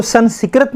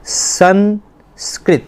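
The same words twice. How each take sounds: First: سنسکرت wrongly with an extra vowel, "san-si-krat"; mispronounced سنسکرت. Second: سنسکرت very slowly in two parts, "san... skrit"; correct pronunciation of سنسکرت. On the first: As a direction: split the cluster in سنسکرت: san-sik-rat. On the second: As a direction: model سنسکرت with s-k-r joined, no vowel between. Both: Shown as a demonstration. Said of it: "اس کو سنسکرت نہیں پڑھنا".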